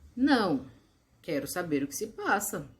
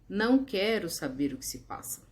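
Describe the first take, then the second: First: There is a pause after the first word. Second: There is no pause after the first word. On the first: The speaker does want to know what is happening. "a vírgula indica uma pausa" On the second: The speaker does not want to know what is happening. "sem a vírgula"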